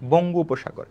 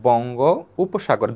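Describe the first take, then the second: First: The two words run together quickly. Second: The two words are said separately, slowly. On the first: "যখন দ্রুত sound করবেন" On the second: "আলাদা করে sound করবেন"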